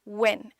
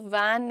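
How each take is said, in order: First: The vowel is gentle with a short stretch. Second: The vowel is broad and open, like 'van'. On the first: The speaker calls it right. "Gentle रखेंगे, short stretch देंगे" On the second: The speaker calls it wrong. "So वैन नहीं"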